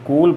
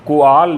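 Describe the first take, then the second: First: The vowel is a single sound. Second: The vowel is split into two sounds. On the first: The speaker calls it right. "इसे कोल पढ़ते हैं" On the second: The speaker calls it wrong. "कोआल नहीं पढ़ते"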